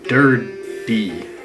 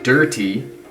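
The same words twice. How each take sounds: First: The middle consonant sounds like a soft D. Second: The middle consonant is a crisp, clear T. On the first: "I would have put a D there" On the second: "gotta enunciate the T"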